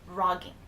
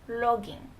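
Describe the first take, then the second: First: It starts with a strong, harsh R sound. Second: It starts with a soft sound between L and R. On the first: The speaker calls it wrong. "with a really aggressive R sound" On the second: The speaker calls it right. "tone it down"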